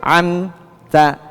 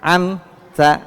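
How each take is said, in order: No difference in how they are said.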